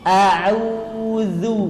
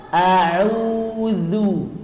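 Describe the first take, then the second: Both takes have the same delivery.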